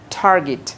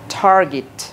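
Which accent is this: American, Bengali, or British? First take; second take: American; American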